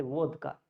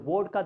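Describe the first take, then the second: First: "vodka" said with a W at the start. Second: Said in the usual way. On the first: Retold or imitated. Teacher showing how they say it, "vodka" with a W sound. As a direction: say "vodka" as "wodka". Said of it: "they say vodka". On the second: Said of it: "instead of vodka, they say".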